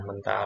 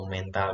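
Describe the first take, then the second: First: "mental" said with a weak schwa e, mən-tal. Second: "mental" said with a full, clear e as in "méja", slowly. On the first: Teacher demonstrating the mind-strength "mental" for students, careful. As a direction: say "mental" with a short swallowed e, as in strong mind. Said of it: "sedangkan mental pakai E". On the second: Teacher demonstrating the bouncing-ball "mental" for students, slow and careful. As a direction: say "mental" with an open e, MEN-tal, meaning bounce. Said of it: "mental pakai E". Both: Shown as a demonstration.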